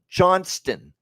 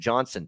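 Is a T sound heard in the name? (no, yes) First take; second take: yes; no. First: The name is said with a T sound. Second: The name is said without a T sound. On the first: The speaker calls it right. "There's a T in that last name" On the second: The speaker calls it wrong. "it drives me nuts when I hear Johnson for a guy when it's Johnston"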